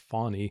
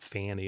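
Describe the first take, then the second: First: The first vowel sounds like in 'fawn'. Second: The first vowel sounds like in 'fan'. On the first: The speaker calls it right. "like a fawn, like a deer" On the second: The speaker calls it wrong. "but not fanny"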